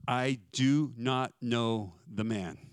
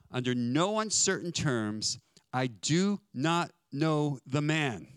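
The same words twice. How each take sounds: First: Slow, deliberate oath, each word set apart; I DO NOT KNOW THE MAN measured out word by word; sworn denial. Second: Very slow and emphatic, every word hammered; emphatic denial. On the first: Peter swearing an oath to his questioners, slow deliberate denial. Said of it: "I am making an oath". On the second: Peter denying Jesus under no uncertain terms, slow emphatic denial. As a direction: DO NOT KNOW THE MAN drawn out with insistent force. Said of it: "This is him emphatically saying". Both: Acted.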